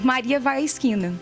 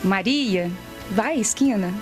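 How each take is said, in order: First: It flows without a pause after the name. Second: There is a pause right after the name. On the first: It reports that the person is going to the corner. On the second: It tells the person to go to the corner.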